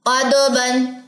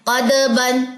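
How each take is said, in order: Both takes have the same delivery.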